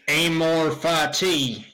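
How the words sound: It is said in an exaggerated Kansas accent. The speaker calls it wrong. "you are from Kansas, so you know, you could be like"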